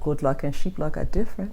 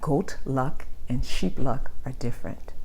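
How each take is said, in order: First: It is said in a Liberian accent. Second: It is said slowly in a neutral accent. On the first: "In my Liberian vernacular" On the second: "Let me say it slowly"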